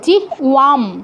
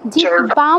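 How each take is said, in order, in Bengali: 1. h-এর পরের ব্যঞ্জনটি w-এর মতো শোনায়। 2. h-এর পরের ব্যঞ্জনটি b-এর মতো শোনায়। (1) "ওই যে ও, এটা তো ব নয়" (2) "জিহ্বাম নয়"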